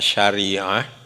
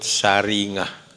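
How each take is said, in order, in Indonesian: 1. Kata itu diucapkan dengan bunyi 'sy' yang baku. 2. Kata itu diucapkan dengan bunyi 's' dan 'ng' khas Jawa. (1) "kalau dalam bacaan kita syariah" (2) "orang-orang Jogja itu menyebut saringah"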